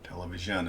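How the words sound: The middle consonant is a blended zh sound. The speaker calls it right. "it's more like an sh at the same time"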